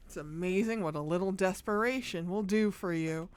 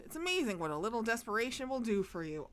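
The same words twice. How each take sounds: First: Said in the usual way. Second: Quick rushed clerk line; fast game dialogue read. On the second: Acted. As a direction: rattle it off.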